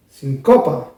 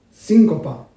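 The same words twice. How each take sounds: First: Sincopa with CO stressed, sin light. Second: Síncopa with SÍN stressed, a falling shape. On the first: Teacher showing how the accent changes the rhythm, second version. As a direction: lean on CO instead. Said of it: "y si yo digo". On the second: Teacher showing how the accent changes the rhythm, first version. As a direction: lean on SÍN. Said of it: "porque si yo digo". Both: Shown as a demonstration.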